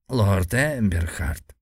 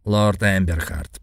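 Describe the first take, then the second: First: Slow creaking elder's voice; creaky old man. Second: Put-on slow formal old man's voice. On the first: Acted. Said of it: "проскрипел старик". (скрипучий старческий голос) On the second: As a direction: address him slowly like an old lord. Old Greek addresses hero. (медленный старческий голос)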